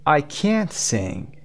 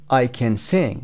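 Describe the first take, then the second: First: Slow, can't drawn out long; stress on can't. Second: Short unstressed can, weight on sing; weak can. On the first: (can't کشیده و با تأکید) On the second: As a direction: skim over can and land on sing. (can کوتاه، تأکید روی sing) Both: Shown as a demonstration. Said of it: "can you hear the difference".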